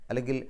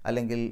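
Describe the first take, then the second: The two takes are said the same way.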